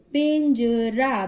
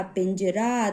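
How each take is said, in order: First: पिंजरा slow, split as pin, ja, raa; sounding out. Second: Said in the usual way. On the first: Shown as a demonstration. Teacher demonstrating the nasal sign, slow split syllables. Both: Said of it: "थोड़ा सा pause देकर".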